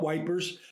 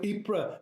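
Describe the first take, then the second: First: The name is said as two-syllable 'wipers'. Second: The name is said as a short 'eepr'. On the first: The speaker calls it wrong. "It's not wipers" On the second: The speaker calls it right. "fine, I got that"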